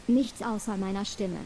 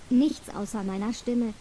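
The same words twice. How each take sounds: The two takes are said the same way.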